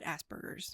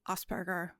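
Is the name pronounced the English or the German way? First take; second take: English; German. First: The name is said with English pronunciation. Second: The name is said with German pronunciation. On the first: It refers to the condition. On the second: It refers to the man himself.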